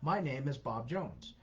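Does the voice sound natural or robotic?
natural. It is said in a natural voice.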